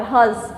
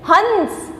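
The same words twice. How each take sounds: First: हंस with air through both mouth and nose, chandrabindu; हँस, मुंह और नाक दोनों से; nasalized vowel hans. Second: हंस with the vowel sent fully through the nose; हंस नाक से; nasal hans. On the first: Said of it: "हवा निकली ना मुंह और नाक से दोनों से". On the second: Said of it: "हंस नाक से बोला मैंने". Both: Shown as a demonstration.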